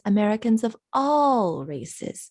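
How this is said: The stress falls on the word all. "He's stressing all instead of races"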